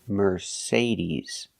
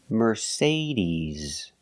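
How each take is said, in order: Both takes have the same delivery.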